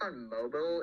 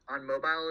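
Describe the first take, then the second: First: "mobile" with a reduced second syllable, like MOH-bull; short mobile. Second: "mobile" with a full long i in the second syllable. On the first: Answering which platforms, "mobile" said MOH-bl. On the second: Restating the platform answer, "mobile" said MOH-bile. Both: Real, not acted. Self-correction between two pronunciations.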